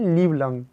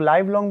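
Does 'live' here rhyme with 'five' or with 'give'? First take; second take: give; five. First: 'Live' has the short 'i' vowel, like 'give'. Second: 'Live' has the long 'eye' vowel, like 'five'. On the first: The speaker calls it right. "लेकिन होता है लिव long" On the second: The speaker calls it wrong. "हम लोग लाइव long बोलते हैं"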